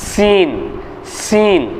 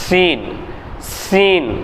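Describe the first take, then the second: No difference in how they are said.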